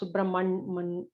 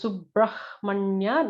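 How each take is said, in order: First: No h sound is heard before the m. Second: An h sound is heard before the m. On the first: The speaker calls it wrong. "not Subramanya" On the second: The speaker calls it right. "so it is Subrahmanya"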